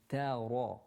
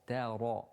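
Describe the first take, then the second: No difference in how they are said.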